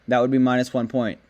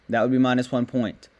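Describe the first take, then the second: The two takes are said the same way.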